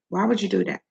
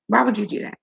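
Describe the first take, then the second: First: It is said in her normal speaking voice. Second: It is said in a put-on childlike voice.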